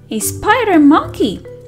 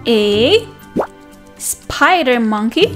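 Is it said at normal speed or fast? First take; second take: fast; normal. First: It is said at a faster pace. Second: It is said at a normal, slower pace.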